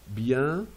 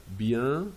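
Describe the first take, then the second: The two takes are said the same way.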